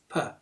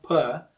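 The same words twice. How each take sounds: First: "per" as a short, weak puh; short schwa. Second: "per" with a long, full vowel. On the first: Teacher corrects the first syllable, "per" as short puh. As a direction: cut "per" down to a quick schwa. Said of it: "Short sha". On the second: Teacher shows what to avoid, a long "per". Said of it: "not per". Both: Shown as a demonstration.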